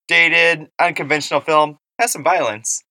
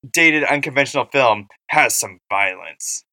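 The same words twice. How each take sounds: First: It sounds pleased about the violence. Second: It sounds critical about the violence. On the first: The violence is a redeeming point. "is she being like, but at least it has some violence?" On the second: The violence is another drawback. "Or is she being like, and it's also kind of violent?"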